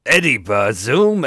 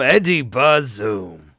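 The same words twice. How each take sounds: First: Loud, slow Pacino-style name call; Al Pacino impression. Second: Even slower, drawn-out Pacino bellow; Al Pacino impression. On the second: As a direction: stretch every syllable, Pacino style. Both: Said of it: "I can't go full Pacino".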